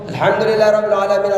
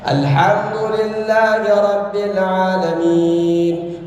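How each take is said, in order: First: It is recited very quickly. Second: It is recited at a moderate speed. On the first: "hadr itu" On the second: "di antara tengah-tengahnya"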